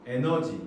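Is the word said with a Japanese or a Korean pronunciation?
Korean. It is said as three syllables, e-neo-ji.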